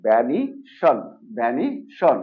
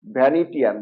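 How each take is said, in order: First: "ভ্যানিশন" ending in one syllable shon; correct SHON ending. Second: "ভ্যানিটিয়ান" ending in two syllables, ti-yan; common mispronunciation. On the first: Teacher gives the correction, "ভ্যানিশন" ending in shon. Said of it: "এটা হলো". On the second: Teacher quotes the usual form, "ভ্যানিটিয়ান" ending ti-yan. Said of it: "এটাকে আমরা কি বলি?". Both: Shown as a demonstration.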